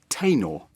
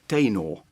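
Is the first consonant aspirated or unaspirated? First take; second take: aspirated; unaspirated. First: The first t has a puff of air. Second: The first t has no puff of air. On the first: The speaker calls it wrong. "starting with a theta" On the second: The speaker calls it right. "starting with tor"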